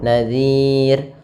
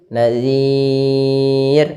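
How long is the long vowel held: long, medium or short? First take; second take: short; medium. First: The long vowel is held for two beats. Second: The long vowel is held for four beats. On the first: "boleh memanjangkan dua harokat" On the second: "untuk yang empat harokat atau enam harokat"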